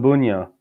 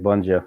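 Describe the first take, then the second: First: The middle consonant sounds like English y. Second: The middle consonant sounds like English j. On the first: This is the original pronunciation of the name. "so it'd be [name]" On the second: This is how the name is said in Canada. "in Canada, I've been going by Bunjo my whole life"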